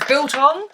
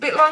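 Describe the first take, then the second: First: The word sounds like 'biltong', L before T. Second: The word sounds like 'bit long', T before L. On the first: The speaker calls it right. "And then I realised it says biltong" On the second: The speaker calls it wrong. "I pronounced it wrong... that's what I was calling it"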